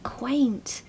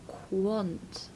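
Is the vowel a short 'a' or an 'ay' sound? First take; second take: ay; short a. First: The vowel is a long 'ay' sound. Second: The vowel is a short 'a' sound. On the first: The speaker calls it right. "how it's actually pronounced" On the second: The speaker calls it wrong. "I hear people saying quant"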